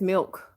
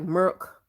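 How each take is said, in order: First: It is said in her own Georgia accent. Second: It is said the Virginia way, like merc.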